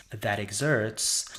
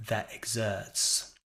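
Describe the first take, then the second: First: "that exerts" said slowly with the r sounded in "exerts"; slow "that exerts" with an American er sound; rhotic imitation. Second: "that exerts" said slowly with no r in "exerts", tongue flat; slow "that exerts" with a British r-less er; British non-rhotic. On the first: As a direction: imitate her "exerts" with a clear r. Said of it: "she pronounces". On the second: Shown as a demonstration. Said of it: "a British speaker would ... sound more like".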